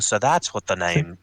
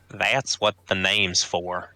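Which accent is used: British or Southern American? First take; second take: British; Southern American. First: It is said in a British-sounding accent. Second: It is said in a Southern American accent. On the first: The speaker calls it wrong. "so shocked by the Cyclops he became British" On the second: The speaker calls it right. "Down south Georgia boy. ... There we go"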